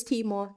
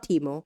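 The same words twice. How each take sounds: First: "Timo" said the intended way, TEE-maw; "Timo" ending in an open aw sound; correct pronunciation of Timo. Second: "Timo" said as TEE-moh; "Timo" ending like "mo"; mispronunciation of Timo. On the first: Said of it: "not Timo". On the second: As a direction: say "Timo" with a closed final oh. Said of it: "It is Timo, not Timo". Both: Shown as a demonstration.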